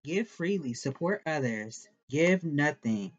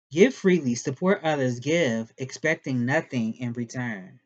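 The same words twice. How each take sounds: First: Said in the usual way. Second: Louder corrected reading. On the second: Shown as a demonstration. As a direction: read it out loud and firm.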